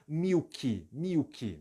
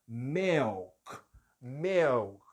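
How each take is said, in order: First: "milky" as Brazilian "miw-kee"; added final I. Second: "milk" as "mehlk", no final vowel. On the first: Teacher showing what you can't say, "milky" as "miw-kee". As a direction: say "milky" with I in both syllables. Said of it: "não pode ter um som de I no final". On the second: Teacher giving the corrected form, "milk" as "mehlk". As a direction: say "milk" with E, stopping on the K. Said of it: "este I tem som de E". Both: Shown as a demonstration.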